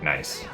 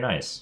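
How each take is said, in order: First: It sounds flat and monotone. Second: It sounds surprised and high-pitched. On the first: The speaker is annoyed at a mistake. "then that's me being sarcastic" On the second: The speaker is really pleased. "I genuinely say the word nice"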